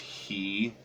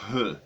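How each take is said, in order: First: The vowel is a long 'ee' sound. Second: The vowel is like 'oo' in good. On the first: The speaker calls it wrong. "You might even think it's he, which is terrible" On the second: The speaker calls it right. "Like it's the vowel in our word good"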